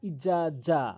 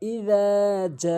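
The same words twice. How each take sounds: First: The two words run together with a short vowel. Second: The vowel is drawn out before the second word. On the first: The speaker calls it wrong. "এই রাল আর এই জিম একসাথে উচ্চারণ করি" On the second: The speaker calls it right. "1 আলিফ টানবেন"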